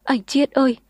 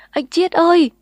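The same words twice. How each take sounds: First: Higher wailing call; girl crying over him. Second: Loud, much higher sobbing wail; girl wailing over him. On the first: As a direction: wail his name. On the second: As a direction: cry his name in anguish. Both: A narrator's reading. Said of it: "cô khóc ầm lên".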